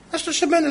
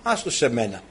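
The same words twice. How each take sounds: First: «Άστο σε μένα» said much higher, sly and sing-song; high sly wife. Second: Said in the usual way. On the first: Acted. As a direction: repeat it up high like a scheming queen. Jezebel repeats her promise, higher. (ύπουλα, πολύ ψηλά: «Άστο σε μένα»)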